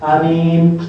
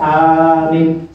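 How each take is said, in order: First: Only the second vowel is held long. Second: Only the first vowel is held long. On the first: "Ketika mimnya yang panjang, hamzahnya yang pendek" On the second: "Yang panjang hamzahnya, mimnya pendek"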